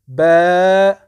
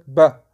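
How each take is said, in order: First: The vowel is drawn out long. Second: The vowel is kept short. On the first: The speaker calls it right. "Il faut toujours prolonger" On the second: The speaker calls it wrong. "tu ne dois pas dire ba, non"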